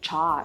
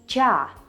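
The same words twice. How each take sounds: First: The consonant is pronounced hard. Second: The consonant is pronounced soft. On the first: The speaker calls it wrong. "and never" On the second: The speaker calls it right. "che and sha are always soft. So you would ... always read them as"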